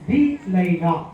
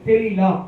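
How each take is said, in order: First: The two words are said separately. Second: The two words run together as one.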